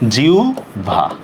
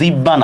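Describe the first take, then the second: First: The middle is an o sound plus bh. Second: The middle is a doubled b sound. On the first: The speaker calls it right. "এটা হবে জিহ্বা" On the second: The speaker calls it wrong. "এটা কিন্তু জিব্বা না"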